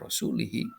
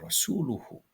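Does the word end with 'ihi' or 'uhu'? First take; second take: ihi; uhu. First: The word ends with the vowels i-hi. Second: The word ends with the vowels u-hu. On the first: The Messenger is joined to the polytheists. The speaker calls it wrong. "dibaca rasulihi itu diatapkan pada kata al-musyrikin" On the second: The Messenger is a new subject, also free of them. The speaker calls it right. "dibaca ropa wa rasuluhu"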